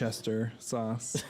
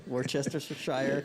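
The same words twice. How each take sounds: First: "Worcester" said short, like woostah, slowly; New England way. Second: "Worcestershire" said slowly as wor-chester-shire; careful full pronunciation. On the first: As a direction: clip "Worcester" to two syllables. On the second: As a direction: spell out every syllable of "Worcestershire". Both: Shown as a demonstration. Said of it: "if you're not from New England".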